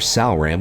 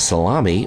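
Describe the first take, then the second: First: The name is said as sal-ram, without the 'mi'. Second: The name is said like the word salami. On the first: The speaker calls it right. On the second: The speaker calls it wrong.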